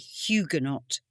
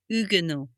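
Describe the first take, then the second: First: The word begins with an audible H sound. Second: The word begins without any H sound. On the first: This is the British way of saying it. "In the U K, in British language, we would say" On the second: This is the French way of saying it. "it is a French word, so it would be pronounced ... So you wouldn't pronounce the H"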